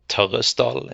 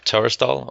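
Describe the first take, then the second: First: The name is said with a Norwegian pronunciation. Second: The name is said with an English pronunciation.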